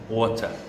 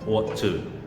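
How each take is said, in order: First: The words blend into one short reduced form. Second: Both words are said fully and separately.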